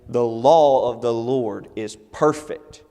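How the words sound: Law and perfect carry heavy, deliberate emphasis. "in a chanting sense, you know, you might say"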